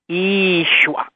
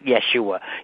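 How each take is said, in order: First: The first vowel is a long 'ee' sound. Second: The first vowel is a short 'eh' sound. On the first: The speaker calls it right. "The Y and the E are a double E sound" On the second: The speaker calls it wrong. "it's not Yeshua"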